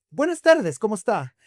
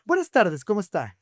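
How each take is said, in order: First: "Buenas tardes" pitched high and loud, "tardes" pressed hard; the clerk, fed up, demands a greeting from the rude customer; insistent greeting. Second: A lightly voiced lesson in manners; pointed politeness. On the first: Retold or imitated. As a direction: lose patience and insist on the greeting. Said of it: "Y le vuelve". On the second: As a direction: nudge the customer to greet first. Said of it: "le echa spray y le dice".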